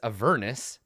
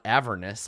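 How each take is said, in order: First: The word rhymes with furnace. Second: The word does not rhyme with furnace. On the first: The speaker calls it right. "it's Avernus ... rhymes with a furnace" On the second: The speaker calls it wrong. "not Avernus, like I've been pronouncing it my whole life"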